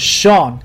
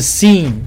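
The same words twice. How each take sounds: First: It begins with an 'sh' sound, one syllable. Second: It begins with an 's' sound, two syllables. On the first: The speaker calls it right. "我的名字的读音是Sean" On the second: The speaker calls it wrong. "不是Sean"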